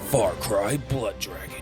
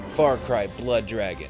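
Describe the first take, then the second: First: It is said in a dramatic announcer voice. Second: It is said in his normal speaking voice.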